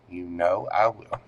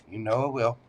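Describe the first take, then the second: First: Weight the word I to promise it; stress on I. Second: Said in the usual way. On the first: Real, not acted. Telling a viewer she will be looked after, leaning on I.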